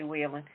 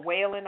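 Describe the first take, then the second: First: "Whelan" said as WEE-lun; preferred pronunciation. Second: "Whelan" said as WAY-lun; alternative pronunciation. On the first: Host settling on own pronunciation of the surname, "Whelan" as WEE-lun. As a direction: say "Whelan" with a long EE. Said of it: "I say Whelan". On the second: Host offering another pronunciation of the ex-Marine's surname, "Whelan" as WAY-lun. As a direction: say "Whelan" with an AY first vowel. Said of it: "not sure how he pronounces it". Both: Shown as a demonstration.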